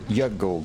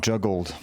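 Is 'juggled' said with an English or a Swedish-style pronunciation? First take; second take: Swedish; English. First: It is said with a Swedish-style pronunciation. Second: It is said with a plain English pronunciation.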